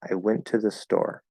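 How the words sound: The word store is stressed. A plain statement with no special focus. "I would probably say store is a little bit higher"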